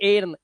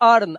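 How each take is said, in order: First: The vowel sounds like the 'e' in 'bed'. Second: The vowel sounds like the 'ir' in 'bird'. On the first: The speaker calls it wrong. "इसको एर्न नहीं बोलते" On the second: The speaker calls it right. "इसको अर्न"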